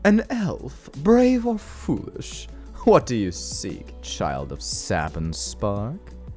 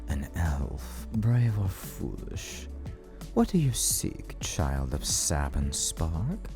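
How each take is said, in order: First: It is said in a flamboyant, theatrical villain voice. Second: It is said in a serious villain voice.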